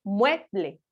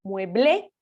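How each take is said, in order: First: "mueble" stressed on MUE, falling on ble; "mueble" as MUE-ble, first syllable strong. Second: "mueble" wrongly stressed as mue-BLÉ; "mueble" with a rising, accented final é; stress on last syllable. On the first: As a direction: lean on MUE in "mueble", let ble drop. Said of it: "la fuerza de voz recae sobre mue". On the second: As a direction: push the BLE of "mueble" up and louder. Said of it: "si fuera una palabra aguda". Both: Shown as a demonstration.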